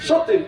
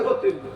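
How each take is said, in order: First: The word begins with an s sound. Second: The word begins with an h sound. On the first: This is how people in Bangladesh say it. "আপনারা সতীন বলে" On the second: This is how people in Assam say it. "আমরা কই হতিন"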